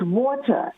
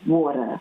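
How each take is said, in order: First: The middle consonant is a clear T. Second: The middle consonant sounds like a soft D. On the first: The speaker calls it right. "water has a T, not a D" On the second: The speaker calls it wrong. "That's the American um, pronunciation, and it's incorrect"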